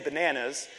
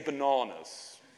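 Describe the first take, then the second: First: It is said in an American accent. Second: It is said in an English accent. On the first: "he wouldn't say bananas" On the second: "he would say bananas"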